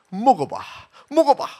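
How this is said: It is said in a very sweet, smooth voice. It is meant to lure and tempt.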